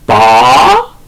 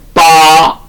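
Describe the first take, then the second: First: The pitch rises toward the end. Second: The pitch stays high and level. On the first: "제이성은 두 단계 내려와서 끝이 올라가죠" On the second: "반드시 제일성은 빠 산 도끼 산 할 때처럼"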